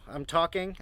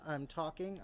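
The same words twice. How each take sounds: First: The voice is loud and clear. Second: The voice is quiet and faint. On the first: "You should be able to hear me great here" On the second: "now I'm directly behind the camera"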